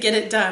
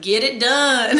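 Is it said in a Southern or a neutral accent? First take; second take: neutral; Southern. First: It is said in the speaker's own non-Southern accent. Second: It is said in a deep Southern US accent.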